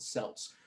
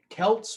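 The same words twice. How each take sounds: First: The word begins with a soft S sound. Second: The word begins with a hard K sound. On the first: "I think they pronounced it with a with a soft C" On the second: "like Celts"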